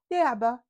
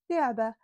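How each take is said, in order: Both takes have the same delivery.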